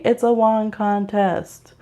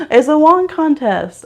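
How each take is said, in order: First: Slow deadpan repeat. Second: "It's a wand contest" exclaimed higher and louder, stress on wand; emphatic exclamation. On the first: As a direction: drag out "It's a wand contest" deadpan. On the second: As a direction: announce "wand contest" with a bright, loud push. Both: Shown as a demonstration.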